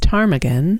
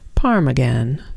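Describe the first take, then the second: First: The word begins with a T sound. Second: The word begins with a P sound. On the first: "a bird with a silent first letter" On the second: "If you pronounced the first letter instead of the second one"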